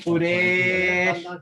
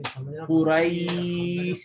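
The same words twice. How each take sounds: First: The vowel does not glide into an ee sound. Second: The vowel glides into a clear ee sound. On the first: The speaker calls it wrong. "that's wrong" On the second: The speaker calls it right. "There should be an E sound at the ending"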